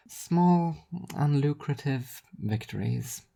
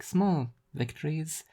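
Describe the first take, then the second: First: Higher, slow, dry stress on Small; sardonic correction. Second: A touch higher, slow, understated; wry small victories. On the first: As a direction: correct yourself with a dry smirk. Rhea repeats with twist. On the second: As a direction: let it land softly and dryly. Rhea repeats phrase. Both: Acted.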